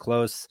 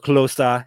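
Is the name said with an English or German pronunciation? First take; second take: English; German. First: The name is said with an English pronunciation. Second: The name is said with a German pronunciation.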